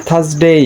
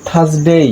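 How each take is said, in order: No difference in how they are said.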